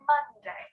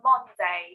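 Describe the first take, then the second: First: The first vowel sounds like the u in up. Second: The first vowel sounds like the o in on. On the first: The speaker calls it right. "but it's Monday" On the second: The speaker calls it wrong. "I know it's an O in the first syllable, but we don't say Monday"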